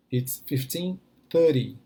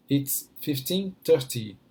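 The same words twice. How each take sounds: First: Slow American-style "thirty" with a tapped t. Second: Slow British-style "thirty" with a clear second t. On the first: Teacher contrasts two ways of telling time, American "thirty". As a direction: say "thirty" the American way, T softened to a quick d. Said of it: "Thirty, americano". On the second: Teacher contrasts two ways of telling time, British "thirty". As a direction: say "thirty" the British way, crisp T in the middle. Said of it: "thirty, britânico". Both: Shown as a demonstration.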